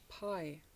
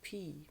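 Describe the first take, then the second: First: The word ends in an 'eye' vowel. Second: The word ends in an 'ee' vowel. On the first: "P in English. Pie" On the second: "in German, they pronounce it P"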